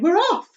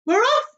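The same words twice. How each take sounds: First: High, loud cheer; excited cry. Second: Very high, loud cheer; excited cry. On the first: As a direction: cheer along. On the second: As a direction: cheer wildly. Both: Acted. The others crying out as the peach rolls, excited. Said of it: "the others cried".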